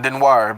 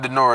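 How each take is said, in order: First: The name is said with a W sound. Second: The name is said without a W sound. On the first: The speaker calls it right. "it got the W sound, but there is no W" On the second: The speaker calls it wrong. "I keep saying Denoir"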